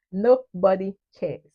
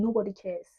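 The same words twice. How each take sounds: First: "Nobody cares" slow, loud, word by word; emphatic repeat. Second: Said in the usual way. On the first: Real, not acted. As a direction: drive home "Nobody cares" with slow weight.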